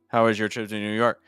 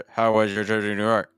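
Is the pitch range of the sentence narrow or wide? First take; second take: narrow; narrow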